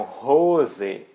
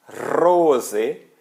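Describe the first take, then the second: First: Rose with a breathy H at the start, slow; with an H sound. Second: Rose with a German R, louder. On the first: Teacher contrasting the H word for students. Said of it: "com H é calça". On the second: Teacher contrasting the German R for students. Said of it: "com R é rosa". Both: Shown as a demonstration.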